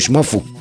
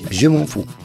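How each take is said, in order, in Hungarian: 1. Magyar módon ejtik, egy szóként. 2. Az eredeti, francia módon ejtik.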